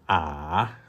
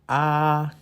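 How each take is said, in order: First: The pitch dips low, then rises again. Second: The pitch stays high and level. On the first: "The third tone is when you are driving down the hill and uphill again" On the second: "The first tone... start with so, ending with so, as if you are driving a car on a flat ground"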